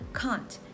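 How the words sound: The vowel is long, open and deep. "in General British G B with a long vowel"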